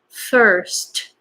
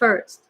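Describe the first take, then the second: First: The S and T are sharp and strong. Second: The S and T are soft and weak. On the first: The speaker calls it right. "So S and T pretty strong" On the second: The speaker calls it wrong. "Not first"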